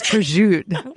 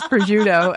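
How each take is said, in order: First: The word is said with its final vowel dropped. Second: The word is said with its final vowel kept. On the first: This is how people on Staten Island say it. "You have to drop all the, the final vowels" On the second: This is how people in Italy say it. "nobody pronounced it the way they pronounced it on Staten Island"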